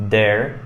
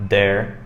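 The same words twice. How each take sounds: Both takes have the same delivery.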